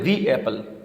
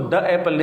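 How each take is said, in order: First: 'The' is pronounced with a long 'thee' vowel. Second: 'The' is pronounced with a short 'thuh' vowel. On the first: The speaker calls it right. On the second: The speaker calls it wrong. "तो हम उसको द एप्पल नहीं कहेंगे"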